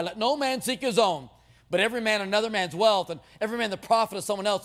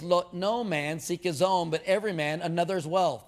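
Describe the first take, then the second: First: Lightly mocked preacher reading; smug self-excusing preacher. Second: Slow, deliberate reading with weight on no; measured scripture reading. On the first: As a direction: recite the verse like it's for others. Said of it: "and we say". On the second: Shown as a demonstration. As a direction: read the verse slowly, leaning on no. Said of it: "In verse twenty-four, it says".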